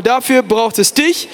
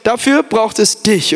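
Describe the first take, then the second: First: Slow, rising on "dich"; repeated to neighbour. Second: Slow, emphatic "Dafür braucht es dich"; told to neighbour. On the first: Preacher has the crowd repeat it, lifting at the end. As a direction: stretch "Dafür braucht es dich" and lift the final "dich". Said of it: "Sag ihm nochmal". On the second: Preacher models the line for the crowd, slow and weighty. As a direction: lean on "Dafür", then drop at the end. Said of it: "drehst du dich zu deinem Nachbarn und sagst". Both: Shown as a demonstration.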